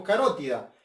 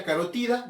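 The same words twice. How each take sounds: First: Carótida stressed on RO; quick contrast, say carótida as ca-RO-ti-da; local pronunciation. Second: Carotida stressed on TI; quick contrast, say carotida as ca-ro-TI-da; Spanish pronunciation. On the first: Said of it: "y acá decimos carótida". (carótida con acento en RO, como decimos acá) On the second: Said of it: "en España carotida". (carotida con acento en TI, como en España) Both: Shown as a demonstration.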